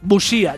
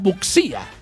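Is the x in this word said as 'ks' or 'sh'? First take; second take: sh; ks. First: The x is said as a 'sh' sound. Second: The x is said as a 'ks' sound. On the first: The speaker calls it right. "si saben decir Shakira, no saben decir" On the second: The speaker calls it wrong. "ya que en su lugar dicen"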